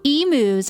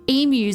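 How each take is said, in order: First: The word is said with an American pronunciation. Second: The word is said with an Australian pronunciation.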